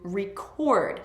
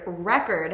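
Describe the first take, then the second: First: The stress is on the second syllable. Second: The stress is on the first syllable. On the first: It is a verb. "When the stress is on the second syllable, it's a verb" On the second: It is a noun. "has the stress on the first syllable"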